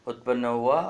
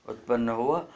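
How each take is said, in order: The two takes are said the same way.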